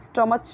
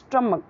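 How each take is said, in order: First: It has an 'uh' vowel and ends in 'ch'. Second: It has an 'uh' vowel and ends in 'k'. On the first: The speaker calls it wrong. "अगर इसे स्टमच बोले तो ये wrong हो जाएगा" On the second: The speaker calls it right. "क्या बोलना है, स्टमक"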